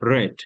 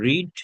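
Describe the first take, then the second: First: The vowel is short, like in 'red'. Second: The vowel is long, like in 'reed'. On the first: It is the past tense. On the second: It is the present tense.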